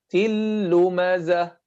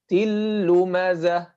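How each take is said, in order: The two takes are said the same way.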